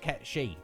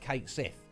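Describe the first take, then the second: First: The name is said as 'Ket She'. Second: The name is said as 'Kate Sith'. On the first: The speaker calls it right. "It's not, it's Ket She, apparently" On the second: The speaker calls it wrong. "I've always known that that character was uh"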